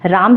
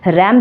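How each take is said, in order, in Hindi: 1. स्वर एक लंबी खुली 'aa' ध्वनि है। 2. स्वर एक छोटी आगे की 'a' ध्वनि है। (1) "हिंदी में उसका उच्चारण भी राम ही करते हैं" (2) "उसका प्रोनाउंसिएशन रैम भी कर सकते हैं"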